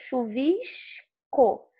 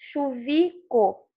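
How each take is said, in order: First: The S sound is clearly pronounced before the C. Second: The S sound is dropped before the C. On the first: The speaker calls it right. "O som do S aparece. Eu falo chuvisco" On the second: The speaker calls it wrong. "não falo chuvi, chuvico"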